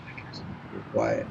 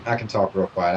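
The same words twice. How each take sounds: First: Soft, hushed ASMR whisper. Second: Said in the usual way. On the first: Shown as a demonstration. Streamer showing viewers how quiet the mic could go, whispering. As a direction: drop into a real quiet whisper.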